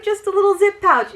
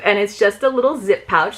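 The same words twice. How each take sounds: First: Cooing over a cute pouch. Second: Said in the usual way. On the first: Real, not acted.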